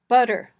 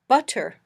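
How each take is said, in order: First: The t is a quick voiced d-like tap. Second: The t is a clear puff of air. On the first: "this flapped t" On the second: "a puffy t"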